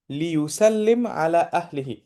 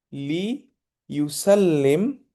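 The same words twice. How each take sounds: First: Said in the usual way. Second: Drawn-out drill word. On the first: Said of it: "teacher repeats at normal pace". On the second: Shown as a demonstration. Teacher to students, drilling লিইউসাল্লিম very slowly. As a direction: stretch লিইউসাল্লিম out very slowly, syllable by syllable. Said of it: "teacher drilling the Arabic word".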